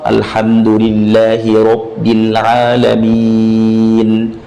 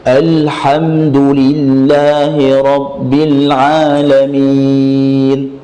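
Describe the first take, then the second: First: It is recited at a flat, level pitch. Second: It is recited at a high pitch. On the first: "Atau datar semua" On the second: "dari pertama nadanya tinggi"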